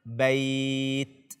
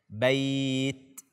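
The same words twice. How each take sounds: No difference in how they are said.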